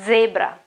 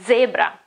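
First: The word has an Italian pronunciation. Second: The same.

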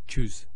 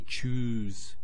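First: The vowel is cut short. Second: The vowel is drawn out long. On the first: The speaker calls it wrong. "We don't say choose" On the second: The speaker calls it right. "So when you say choose, there's an elongation there"

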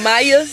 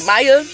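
First: The first vowel sounds like 'eye'. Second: The first vowel sounds like 'eye'.

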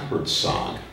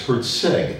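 First: The last syllable has an 'oh' vowel. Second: The last syllable has an 'eh' vowel. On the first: The speaker calls it wrong. "not Herzog" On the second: The speaker calls it right. "It's Herzeg"

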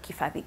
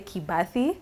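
First: The third consonant is an F sound. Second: The third consonant is a B sound. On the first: "it's supposed to be Kifathi" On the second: "usually I just say Kibathi"

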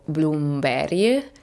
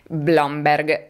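First: The name is said with Swedish-style sounds. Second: The name is read plainly as it is spelled. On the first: The speaker calls it right. "ma in realtà sarebbe tipo Bloomberry" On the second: The speaker calls it wrong. "la cui pronuncia sembrava tanto semplice"

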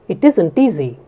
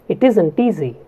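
The two takes are said the same way.

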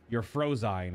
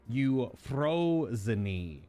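First: The vowels are anglicized, as in English. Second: Every vowel is sounded, as in Greek. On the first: "if you pronounce it in English" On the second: "Every vowel is combined with the consonants"

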